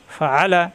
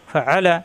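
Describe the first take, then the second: No difference in how they are said.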